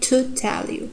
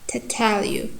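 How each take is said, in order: First: The vowel in 'to' is full. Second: The vowel in 'to' is reduced to schwa. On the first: The speaker calls it wrong. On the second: The speaker calls it right.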